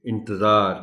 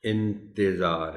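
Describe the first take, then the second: First: It is said quickly without a clear i after t. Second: It is said carefully with a clear i after t. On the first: The speaker calls it wrong. "ज़्यादातर लोग इसको रवानी में इंतज़ार कहते हैं" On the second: The speaker calls it right. "इसका तलफ़्फ़ुज़ इंतज़ार है, यानी ते के नीचे ज़ेर"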